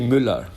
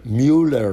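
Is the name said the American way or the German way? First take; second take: German; American. First: The name is said with a German pronunciation. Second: The name is said with an American pronunciation. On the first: The speaker calls it right. "but it's actually Müller" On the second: The speaker calls it wrong. "They say"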